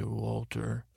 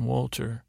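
First: Mike's quiet Walter. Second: Said in the usual way. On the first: Retold or imitated. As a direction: say Walter quietly, dead calm. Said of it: "love to hear every time he would say". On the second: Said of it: "Mike saying".

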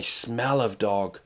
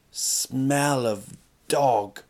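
First: Said in the usual way. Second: Very slow "smell of dog", each word stretched; drawn-out emphasis. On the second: Real, not acted. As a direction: drag out "smell" and "dog" for comic weight. Repeats the phrase for comic emphasis.

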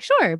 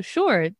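First: Upbeat, agreeable falling "Sure", pitched higher; willing, uncomplicated "Sure"; sincere, positive. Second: Understated sarcastic "Sure" that means the opposite. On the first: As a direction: say "Sure" brightly and mean it. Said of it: "you don't mean it sarcastically". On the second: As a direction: say "Sure" as a dry dismissal. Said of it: "you're being sarcastic". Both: Shown as a demonstration.

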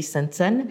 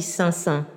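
First: Sansan said with the n sounded, French way; French-style name. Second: Sansan with nasalised vowels and no n pronounced; Sansan, vowels through the nose, final n dropped; Burmese pronunciation. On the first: Teacher showing the name wrongly to an interviewer, n sounded. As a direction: Sansan with a clear consonant after each vowel. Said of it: "je m'appelle Sansan ... j'ai dit Sansan". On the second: Teacher showing her Burmese name to an interviewer, nasalised. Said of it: "il faut nasaliser sans prononcer le N". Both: Shown as a demonstration.

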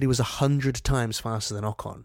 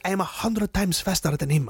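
First: Said in the usual way. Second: Imitated foreign driver's accent, pitched higher; higher voice in a mock foreign accent; put-on Alonso accent. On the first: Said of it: "I don't know why I did that accent". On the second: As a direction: mimic a boastful driver in a rough accent. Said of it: "why I did that accent".

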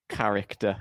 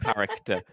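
First: Said in the usual way. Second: Saying it through a laugh; giggling while mocking the word. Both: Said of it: "looking in the mirror before the podcast to say".

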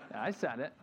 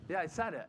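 First: Chuckling through the line; laughing admission. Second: Bold, unapologetic admission; defiant quip. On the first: Real, not acted. Pastor admitting his outburst, laughing. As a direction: own it with a sheepish laugh. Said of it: "I did it". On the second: Retold or imitated. Coach boasting to the crowd, defiant. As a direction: toss it out like a proud brag.

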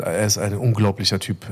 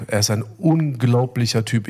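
First: Said in the usual way. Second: "unglaublicher" drawn out with a punched first syllable; stress on unglaublicher. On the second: Real, not acted. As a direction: hammer home "unglaublicher", slowly, syllable by syllable. Repeats it for emphasis. („unglaublicher“ gedehnt und nachdrücklich betont)

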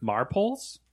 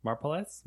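First: Marpoles read as MAR-poles, rhyming with poles, with a questioning rise; English reading: Marpoles like mar-poles, unsure; trying the word out. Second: Marpoles said mar-po-les, three syllables, softer, as if Spanish; Spanish-style guess. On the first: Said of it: "I wasn't sure if it was supposed to be, like, Spanish". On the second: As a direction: sound it out like a Spanish word, Marpoles. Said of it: "like, Spanish or something for a second there". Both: Shown as a demonstration.

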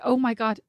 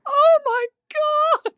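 First: Hushed, breath-only mock shock; whispered little gasp of disbelief; understated imitation of a stunned reaction; mild shock. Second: Hammed-up wail, very high and drawn out; slow, high-pitched mock sobbing; heartrending sobs. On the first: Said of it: "expecting her to be just like". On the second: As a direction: imitate someone racked with sobs. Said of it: "heartrending sobs, like, racked with".

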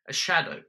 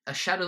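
First: A shadow said higher and louder; dramatic hush-breaking announcement; ominous emphasis. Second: Said in the usual way. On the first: A narrator's reading. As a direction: land on shadow with dread. Ominous first mention.

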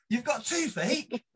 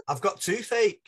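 First: Slow, high-pitched disbelief; hammed-up astonishment, voice climbing; incredulous echo. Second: High, loud whine of complaint; hammed-up moan of suffering; mock toothache wail. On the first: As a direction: drag it out as an outraged question. Teller echoes roommate in disbelief. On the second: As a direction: wail it like a pained roommate. Roommate wails about toothache.

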